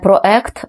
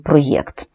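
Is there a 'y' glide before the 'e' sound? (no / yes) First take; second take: no; yes. First: The vowels meet with no y glide between. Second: A y glide is heard before the e. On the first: The speaker calls it wrong. "звукового так званого гіатусу, септо зяєння, а не проект" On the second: The speaker calls it right. "правильну форму із йотацією"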